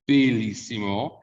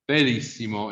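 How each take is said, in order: First: "bellissimo" with a closed first E. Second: "bellissimo" with an open first E; mistaken open E. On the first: Teacher correcting a common mistake, closed E in "bellissimo". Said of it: "the vowel gets closed". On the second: Teacher showing a common mistake, open E in "bellissimo". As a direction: carry the open E of bello into "bellissimo". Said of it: "so they say bello". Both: Shown as a demonstration.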